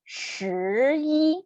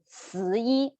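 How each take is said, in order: First: The first sound has the tongue curled back. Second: The first sound is a flat s sound. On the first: The speaker calls it right. "the correct one" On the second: The speaker calls it wrong. "the wrong one"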